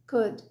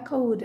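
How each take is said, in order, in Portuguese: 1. A vogal é curta e o L é silencioso. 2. A vogal é longa e o L é pronunciado. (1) "é could, could. ... Quase como se o O e o L sumissem" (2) "Não é cold"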